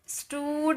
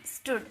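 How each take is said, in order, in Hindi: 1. स्वर खींचकर लंबा बोला जाता है। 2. स्वर छोटा और जल्दी बोला जाता है। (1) "स्टूड नहीं" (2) "फास्ट इसे साउंड निकलेगा"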